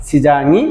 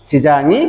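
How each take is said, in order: Both takes have the same delivery.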